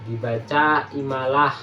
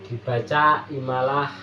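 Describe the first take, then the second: No difference in how they are said.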